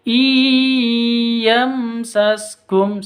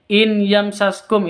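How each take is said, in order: First: The n sound merges completely into the y. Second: The n sound is clearly pronounced before the y. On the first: The speaker calls it right. "Yang betul i yamsaskum seperti itu" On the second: The speaker calls it wrong. "In yamsaskum itu salah"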